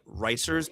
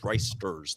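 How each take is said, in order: First: The name is said without a T sound. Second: The name is said with a T sound. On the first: The speaker calls it wrong. "people usually say like Ricers" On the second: The speaker calls it right. "but it's Ricesters. There's a T in there"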